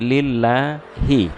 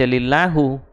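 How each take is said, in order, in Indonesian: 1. Kata lillahi diakhiri dengan vokal i. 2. Kata lillahi diakhiri dengan vokal u. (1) "tapi lillahi" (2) "jangan dibaca lillahu"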